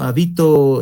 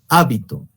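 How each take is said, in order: First: The stress is on the second syllable. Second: The stress is on the first syllable. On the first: I live somewhere. "habito sería el acento prosódico" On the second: A habit or custom. "hábito, con tilde, que sería con acento gráfico"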